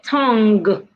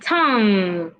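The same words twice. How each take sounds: First: The word ends with an audible hard g sound. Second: The word ends in a nasal with no g. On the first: The speaker calls it wrong. "Do not say tongue. There is no go there" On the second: The speaker calls it right. "Say tongue"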